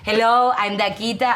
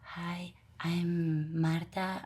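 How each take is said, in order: First: It is said loudly, with a strong voice. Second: It is said softly, with little presence.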